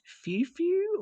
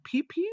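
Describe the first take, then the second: First: Each word begins with an F sound. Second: Each word begins with a P sound. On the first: "So it looks like few" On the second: "is it like pew pew, like, you know, guns"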